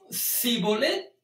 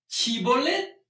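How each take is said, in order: First: The word begins with an 's' sound. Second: The word begins with a 'sh' sound. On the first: The speaker calls it wrong. "porque no podían pronunciar la palabra correctamente" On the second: The speaker calls it right. "di la palabra Shibolet"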